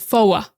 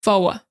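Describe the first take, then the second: First: It has a Boston accent with the r dropped. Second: It has a Boston accent with the r dropped.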